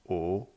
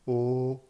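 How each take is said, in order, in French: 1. Elle est prononcée avec le deuxième ton. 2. Elle est prononcée avec le premier ton.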